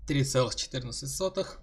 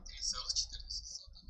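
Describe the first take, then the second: First: Said in the usual way. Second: Soft unvoiced whisper. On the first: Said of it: "mic check phrase". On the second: Shown as a demonstration. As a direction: breathe it out as a whisper. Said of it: "mic check whispered".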